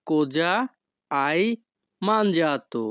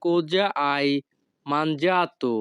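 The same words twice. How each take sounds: First: Each word of "Cosa hai mangiato?" set apart by pauses; slow separated words for a class. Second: Said in the usual way. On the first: Shown as a demonstration. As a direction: break the question into single words. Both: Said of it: "এই বাক্যের Italian ভাষা হবে".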